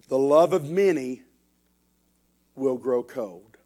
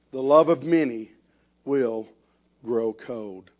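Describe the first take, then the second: No difference in how they are said.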